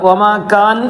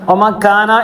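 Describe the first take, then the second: First: The word ends in a bare consonant. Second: The word ends with a short vowel. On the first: The speaker calls it right. "വമാ കാൻ എന്ന് പറഞ്ഞ പോലെ" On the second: The speaker calls it wrong. "വമാ കാന എന്ന് പറയരുത്"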